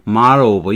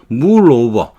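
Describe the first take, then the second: First: The vowel in 'mull' sounds like 'uh'. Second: The vowel in 'mull' sounds like 'oo'. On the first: The speaker calls it right. "mar 아에서 시작해서 어로 끝나는 거죠. mar over 이게 맞는데" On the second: The speaker calls it wrong. "물은 아닌데 자꾸 자꾸 물로 발음을 하죠"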